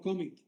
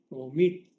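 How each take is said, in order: First: The stress is on the first syllable. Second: The stress is on the last syllable. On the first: The speaker calls it wrong. "no commit" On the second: The speaker calls it right. "lleva un acento prosódico en la última"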